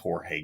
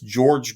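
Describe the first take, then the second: First: The name begins with an H-like sound. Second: The name begins with a J sound, like George. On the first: The speaker calls it wrong. "excuse me" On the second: The speaker calls it right. "he pronounces it George"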